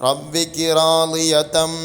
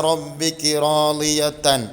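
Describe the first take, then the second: No difference in how they are said.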